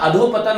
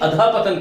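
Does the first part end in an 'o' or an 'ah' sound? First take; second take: o; ah. First: The first part ends in an 'o' sound. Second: The first part ends in an 'ah' sound. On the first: The speaker calls it wrong. "अधोपतन नहीं" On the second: The speaker calls it right. "अधापतन कहना चाहिए"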